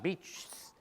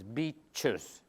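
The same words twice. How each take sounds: First: It is said as one syllable ending in s. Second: It is said as two syllables ending in -iz. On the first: The speaker calls it wrong. "the plural of that is not beaches" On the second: The speaker calls it right. "but it's beaches. You add a whole syllable"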